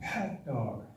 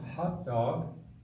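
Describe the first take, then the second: First: It begins with a different, tighter throat sound. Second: It begins with an ordinary English h sound. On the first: "you change that H to this G" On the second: "instead of hot dog"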